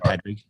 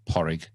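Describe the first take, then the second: First: The middle has a clear 'd' sound. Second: The middle sounds like 'rr' with no 'd'. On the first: The speaker calls it wrong. "I wouldn't say Padrig" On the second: The speaker calls it right. "They'd be Porrig"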